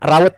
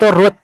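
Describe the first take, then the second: First: The vowel is an 'ow' sound. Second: The vowel is a long 'oo' sound. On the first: The speaker calls it wrong. "bukan bukan raut ya, tolong" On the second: The speaker calls it right. "namanya itu root"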